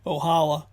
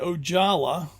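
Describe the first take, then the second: First: The name is given a Spanish-style pronunciation. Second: The name is given a Finnish-style pronunciation. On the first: "which is a Spanish pronunciation" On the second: "I think, the Finnish pronunciation"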